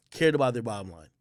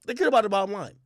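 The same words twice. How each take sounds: First: Said in the usual way. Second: Higher and louder, punching cared; emphatic answer. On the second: Shown as a demonstration. Vlogger answers his own question, emphatic and louder. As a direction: hit "cared" hard as the answer.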